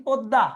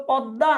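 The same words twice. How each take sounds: First: পদ্মা as "podda", rounded o; close o sound. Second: পদ্মা as "pɔdda", open ɔ; open o sound. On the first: Teacher offering the other choice, পদ্মা with close o. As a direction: round the first vowel of পদ্মা. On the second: Teacher quizzing on the river's name, পদ্মা with open ɔ. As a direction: open the first vowel of পদ্মা. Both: Shown as a demonstration. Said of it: "পদ্মা, অধ্বনি হচ্ছে".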